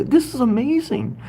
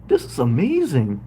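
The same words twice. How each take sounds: First: "This is amazing" pitched high and gushing; excited amazement. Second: Said in the usual way. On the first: Real, not acted. Host amazed at a viewer from Alaska, gushing high.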